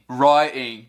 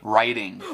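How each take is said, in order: First: It is said with a British accent. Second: It is said with an American accent. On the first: "Writing, writing" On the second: "em vez de writing"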